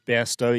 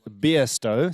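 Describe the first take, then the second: First: The first syllable sounds like 'bare'. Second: The first syllable sounds like 'beer'. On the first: The speaker calls it wrong. "we were calling Anya Bairstow yesterday" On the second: The speaker calls it right. "we should be pronouncing it Beerstow"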